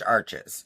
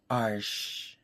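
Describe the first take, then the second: First: The name is said with an American pronunciation. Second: The name is said with a French pronunciation. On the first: "But I'm freaking American, so it's Arches" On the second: "It's actually pronounced Arches"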